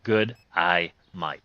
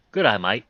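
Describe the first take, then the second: First: Slow, drawn-out Australian accent attempt; slow Australian try. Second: Quick, louder Australian "Good, I might"; fast Australian. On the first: Slow Australian attempt at his one learned line. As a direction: stretch the Australian "Good, I might" out slowly. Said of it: "one freaking line". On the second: Shown as a demonstration. Says his one Australian line quickly, on request. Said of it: "Say it real fast".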